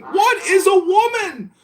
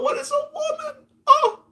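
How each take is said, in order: First: High-pitched mock debater; mocking quote. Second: Mock wail. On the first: Mimicking people arguing all day, high mocking quote. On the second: Despairing at wasted time, high mock wail. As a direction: squeal it in mock anguish. Mocking the argument once more.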